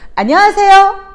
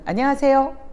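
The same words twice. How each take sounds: First: The greeting is said at a high pitch. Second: The greeting is said at a middle pitch. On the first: "미보다는 안녕하세요. 쏘리 난 거예요" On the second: "도보다는"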